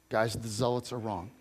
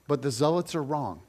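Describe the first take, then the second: First: "Guys, the zealots are wrong." said softer and lower, leaning in; quiet earnest repeat. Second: Said in the usual way. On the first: Shown as a demonstration. Preacher to congregation, softer and more earnest on the repeat.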